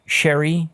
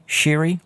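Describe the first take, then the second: First: "Sherry" with an open E, rhyming with berry; alternative pronunciation. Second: "Sherry" said as "Sheery", with an EE sound; alternative pronunciation. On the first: Host offers a member's name for correction, "Sherry" with an E as in berry. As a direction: say "Sherry" like the drink. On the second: Host offers a member's name for correction, "Sherry" said as "Sheery". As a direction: say "Sherry" to rhyme with dreary. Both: Shown as a demonstration. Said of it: "let me know".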